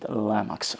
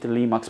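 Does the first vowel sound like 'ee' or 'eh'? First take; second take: eh; ee. First: The first vowel sounds like 'eh'. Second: The first vowel sounds like 'ee'. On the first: This is how people in Europe say the name. "in Europe, you France, Italy, etc., we pronounce it Lemax" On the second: This is how some other listeners say the name. "I know some of you pronounce it Limax"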